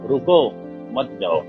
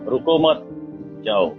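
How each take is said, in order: First: There is a pause after रुको. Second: There is a pause after मत.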